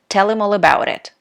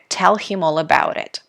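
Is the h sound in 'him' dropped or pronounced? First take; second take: dropped; pronounced. First: Him is reduced to im, without h. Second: The word him is said fully, with h. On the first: "when people speak really fast, they say" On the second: "you might hear"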